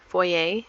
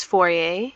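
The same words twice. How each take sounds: First: "Foyer" repeated as FOY-YAY; second-try pronunciation. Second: "foyer" ending in a long AY; unsure pronunciation. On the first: Vlogger checking how you pronounce it, second try at "Foyer". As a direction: say "Foyer" with a Y glide before the AY. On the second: Vlogger showing the front entrance, unsure pronunciation of "foyer". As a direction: try out "foyer" with a French-style AY ending. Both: Shown as a demonstration. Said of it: "If that's how you pronounce it".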